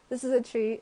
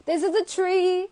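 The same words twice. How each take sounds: First: Said in the usual way. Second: High, louder mock announcement; silly high voice. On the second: Showing viewers the tree nail, silly high announcement. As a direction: pipe it up in a silly voice.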